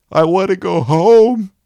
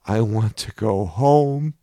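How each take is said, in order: First: Put-on a child's wail, much higher and louder. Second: A lightly voiced child, higher and louder, pleading; a small inner child begging, slowly; crying child voice. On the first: Young inner voice wailing to go home, high loud cry. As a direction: let the inner child cry out at full pitch. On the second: Young inner voice crying out to go home, mild child voice. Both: A narrator's reading. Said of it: "a very young voice was crying out".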